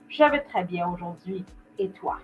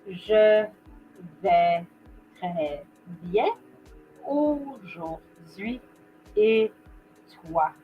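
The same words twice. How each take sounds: First: It is quick, with words run together naturally. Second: It is slow, with each word carefully articulated. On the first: "I'm going to repeat that at the normal pace" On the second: "I'm going to take my time with this"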